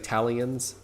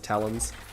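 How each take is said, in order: First: The word has an extra 'ee' sound, three syllables. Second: The word is said plainly with two syllables. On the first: The speaker calls it wrong. "Some people say Talions. I don't know why" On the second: The speaker calls it right. "It's Talons"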